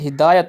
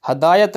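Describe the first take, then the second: First: The first vowel sounds like 'i'. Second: The first vowel sounds like 'a'. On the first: The speaker calls it right. "बल्कि हिदायत होता है" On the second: The speaker calls it wrong. "हदायत नहीं होता"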